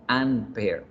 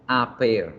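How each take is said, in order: First: "an pair", con una ene que corta; artículo incorrecto. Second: "A pair", con la A sola ante consonante; artículo correcto. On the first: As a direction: di "an pair" despacio, marcando la ene sobrante. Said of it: "no an pair". (artículo incorrecto ante consonante) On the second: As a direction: di "A pair" sin ene en el artículo. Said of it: "Por eso es esta reglita". (artículo correcto ante consonante) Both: Shown as a demonstration.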